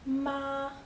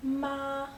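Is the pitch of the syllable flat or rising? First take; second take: flat; flat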